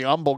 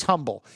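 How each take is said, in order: First: Humble without the H, UM-bəl; Texan humble, starting on the vowel; dropped H. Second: Humble with the H, HUM-bəl; corrected humble, HUM-bəl; sounded H. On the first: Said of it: "drop every H". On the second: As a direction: say humble with a clear H at the start. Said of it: "No, he's humble". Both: Shown as a demonstration.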